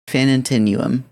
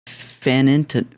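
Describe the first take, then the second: First: The word ends in two syllables 'nu-um'. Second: The word ends in a single syllable 'num'. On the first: The speaker calls it right. "Okay, that makes more sense" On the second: The speaker calls it wrong. "How do I pronounce this?"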